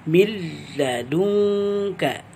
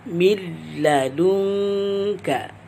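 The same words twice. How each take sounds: First: The n merges into a short, unnasalized l. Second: The same.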